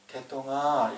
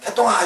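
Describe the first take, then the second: First: It is called in a lower voice. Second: It is called in a high-pitched voice.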